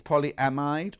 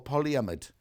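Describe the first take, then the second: First: Polyamide said as POLY-AM-ide, with a full "a" and a long "ide" like "eyed"; one way to say it. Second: Polyamide said as POLY-uh-mid, with the middle cut to "uh" and a short "mid"; the other way. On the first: Presenter asks her co-host which polyamide is right, full poly-am-ide. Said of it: "do you say polyamide". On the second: Presenter offers the second polyamide, reduced poly-uh-mid. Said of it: "or polyamide?". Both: Shown as a demonstration.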